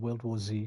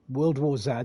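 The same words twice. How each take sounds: First: The Z is said the American way, zee. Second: The Z is said the British way, zed.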